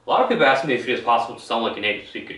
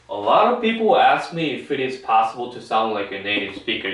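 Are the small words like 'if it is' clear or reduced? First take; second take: reduced; clear. First: The small words are reduced and run together. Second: Every word is pronounced clearly and separately. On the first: This is how native speakers talk among friends. "생략 다 해 그냥 다 빼먹어요. 이거 강세를 다 빼먹는다고요" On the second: This is how it sounds on the news. "이렇게 정확히 또박또박 발음한다는 거죠"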